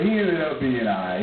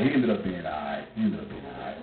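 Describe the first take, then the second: First: Said in the usual way. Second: Much lower, much softer trailing off; fading away. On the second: Real, not acted. Comic repeating the reassurance, fading out quietly. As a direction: let it die away to nothing.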